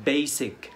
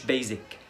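First: Basic said "BAY-sik"; voiceless s in the middle of "basic"; correct s sound. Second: Basic said "BAY-zik"; mistaken z sound. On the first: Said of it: "basic مش basic". (basic بسين، "بيسِك") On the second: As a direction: buzz a z in the middle of "basic". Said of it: "مش basic". (basic غلط بزين، "بيزِك") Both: Shown as a demonstration.

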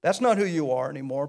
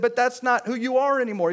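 First: Soft reassurance. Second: "not" punched, whole line raised and firm; emphatic declaration. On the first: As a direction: say it softly, like a comfort. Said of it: "soft restatement of same line". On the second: Pastor quoting Paul to the church, emphatic and raised. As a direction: drive home "not who you are" like a verdict. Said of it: "emphatic quote of Paul". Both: Acted.

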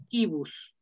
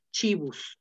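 First: Kibus with a hard k; classical Latin. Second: Chibus with a ch sound; ecclesiastical Latin. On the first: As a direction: say kibus with a hard K sound at the start. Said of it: "en esa pronunciación eclesiástica". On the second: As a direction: say chibus, starting with ch as in church. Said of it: "Algunos lo pronuncian así en esa pronunciación eclesiástica". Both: Shown as a demonstration.

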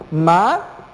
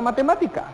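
First: "Matemática" split into ma, te, má, ti, ca with pauses; syllable by syllable. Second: Said in the usual way. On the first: Shown as a demonstration. Teacher separates the word for students, syllable by syllable. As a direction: say "Matemática" one syllable at a time. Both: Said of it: "Separemos la palabra matemática".

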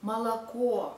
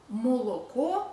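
First: Молоко as "ma-la-KO"; unstressed o reduced. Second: Молоко with full o in every syllable, "mo-lo-ko"; read as spelled. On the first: Teacher showing how it is read, молоко reduced to "malakO". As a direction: say молоко with a-like vowels before a stressed final o. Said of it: "but we read". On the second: Teacher showing how it is written, молоко with every o kept. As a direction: sound out молоко letter by letter as "mo-lo-ko". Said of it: "we write". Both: Shown as a demonstration.

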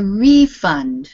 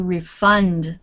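First: "refund" stressed on the first syllable, RE-fund. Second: "refund" stressed on the last syllable, re-FUND; stress on second syllable. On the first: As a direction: say "refund" as a noun, punching RE. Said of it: "so the noun sounds like". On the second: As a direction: say "refund" as a verb, weight on FUND. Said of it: "the stress is on the last part". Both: Shown as a demonstration.

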